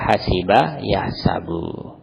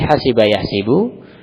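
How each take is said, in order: First: The second word's middle vowel is a. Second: The second word's middle vowel is i. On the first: "bisa juga dibaca" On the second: "Seperti hasiba yahsibu"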